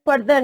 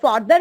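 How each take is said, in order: First: Further said as "FUR-ther", with short central vowel. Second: Further said as "FAR-ther", with long open ah; open "far" vowel. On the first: Teacher contrasting two comparatives, further pronounced "FUR-ther". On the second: Teacher naming two comparatives, further pronounced "FAR-ther". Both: Shown as a demonstration. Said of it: "दो आपके पास comparative degree है".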